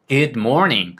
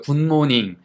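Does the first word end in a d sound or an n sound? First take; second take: d sound; n sound. First: The first word ends with a d sound. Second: The first word ends with an n sound. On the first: The speaker calls it right. "굿모닝도 아니고" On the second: The speaker calls it wrong. "군이라고 발음을 한다고요"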